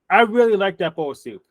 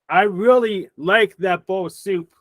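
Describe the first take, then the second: First: It is said in a sincere, normal tone. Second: It is said in a sarcastic tone.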